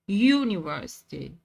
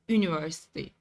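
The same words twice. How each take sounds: First: The word begins with a 'y' sound. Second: The word begins with a plain vowel sound. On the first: The speaker calls it right. "We pronounce it like university" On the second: The speaker calls it wrong. "not university"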